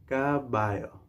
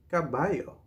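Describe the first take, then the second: First: Say-along model. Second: Said in the usual way. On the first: Shown as a demonstration. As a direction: stretch "Caballo" for learners to repeat. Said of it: "Say it with me now". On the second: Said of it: "we can say".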